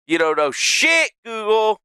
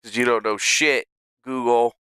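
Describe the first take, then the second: First: Louder, pitched up, fed-up shout; yelling at Google. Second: Said in the usual way. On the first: Real, not acted. Streamer yelling at Google for a useless answer, fed-up shout. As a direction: bark it at the screen in disgust.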